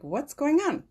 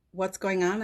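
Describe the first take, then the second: First: Pitched higher, falling at the end; a high, falling "What's going on?"; their puzzled reply. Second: Said in the usual way. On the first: Retold or imitated. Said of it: "And they're like". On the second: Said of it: "you're like".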